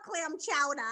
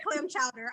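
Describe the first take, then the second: First: Soft Boston "chowder", dropping the final R; Boston accent. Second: "chowder" with the final R sounded; every syllable pronounced. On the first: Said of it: "They want you to say clam chowder". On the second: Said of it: "I pronounce every syll-, syllable". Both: Shown as a demonstration.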